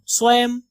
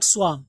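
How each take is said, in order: First: "स्वम" with the 'a' of cat, not 'ah'; सही उच्चारण. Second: "swam" with an open 'ah' vowel; गलत उच्चारण. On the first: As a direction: say "स्वम" as SWAEM. ("स्वम" का सही उच्चारण, 'ऐ' के साथ) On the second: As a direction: say "swam" as SWAHM. ("swam" का गलत उच्चारण, 'आ' के साथ) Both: Shown as a demonstration. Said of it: "not swam".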